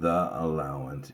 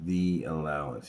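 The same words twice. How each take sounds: First: The vowel in 'the' is a short uh. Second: The vowel in 'the' is a long ee. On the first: The speaker calls it wrong. "It's not the allowance" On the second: The speaker calls it right. "it's the allowance"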